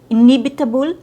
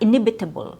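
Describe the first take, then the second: First: The stress is on the second syllable. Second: The stress is not on the second syllable. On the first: The speaker calls it right. "ne is stressed" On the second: The speaker calls it wrong. "not inevitable"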